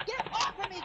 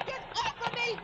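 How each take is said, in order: First: Frightened cry. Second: Higher, more desperate repeat of the plea; desperate shriek. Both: Acted. Fighting off her attacker.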